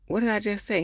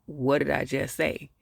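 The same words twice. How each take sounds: First: Higher-pitched mock demand; mock demanding question. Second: Slow, measured repeat of the question; mock insistent question. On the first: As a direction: quote her pressing him for an answer. Acted retelling of an irritated question. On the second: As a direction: spell it out slowly, lightly insistent. Same question repeated, slower.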